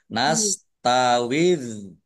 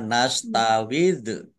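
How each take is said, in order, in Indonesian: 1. Bunyi dh ditahan diam, tanpa pantulan. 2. Bunyi dh dilepas dengan pantulan.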